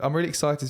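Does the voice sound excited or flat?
flat. The voice sounds flat and unexcited.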